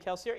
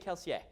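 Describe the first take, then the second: First: The name has an American pronunciation. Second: The name has a French-style pronunciation. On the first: This is how the author says it. "I say his name Kelsier. ... because I'm an American" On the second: This is how people in the story's world say it. "In World, they'd say Kelsier. ... a French pronunciation area"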